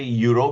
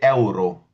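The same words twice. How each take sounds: First: The first vowel is not said like English 'ay'. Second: The first vowel is said like English 'ay'. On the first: The speaker calls it wrong. "we'll not say euro" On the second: The speaker calls it right. "E is pronounced as A"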